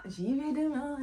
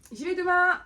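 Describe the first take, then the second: First: Said in the usual way. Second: Loud mock resolve.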